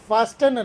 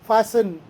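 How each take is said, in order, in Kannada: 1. ಮಧ್ಯದಲ್ಲಿ t ಶಬ್ದ ಉಚ್ಚರಿಸಲಾಗುತ್ತದೆ. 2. ಮಧ್ಯದಲ್ಲಿ t ಶಬ್ದ ಬಿಟ್ಟುಬಿಡಲಾಗುತ್ತದೆ. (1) "ಫಾಸ್ಟನ್ ಅಲ್ಲ" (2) "ಟಿ ಸೈಲೆಂಟ್ ಇದೆ"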